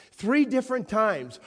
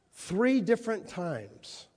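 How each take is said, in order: First: "Three" punched higher and louder; raised emphasis. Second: Three drawn out slowly, stress on three; slow emphasis. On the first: Preacher repeating the count with more force, raised emphasis. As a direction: hit "Three" hard. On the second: Preacher stressing Peter's questioning, slow emphasis. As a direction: lean on "three" and stretch it. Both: Shown as a demonstration.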